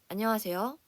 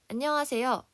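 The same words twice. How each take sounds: First: The voice is lower and more resonant. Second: The voice is higher and less resonant. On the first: The speaker calls it right. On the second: The speaker calls it wrong.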